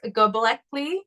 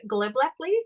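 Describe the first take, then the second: First: The word is said without an extra L sound. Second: The word is said with an extra L sound. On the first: The speaker calls it right. "I'm gonna pronounce it properly" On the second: The speaker calls it wrong. "I was giving it an extra L"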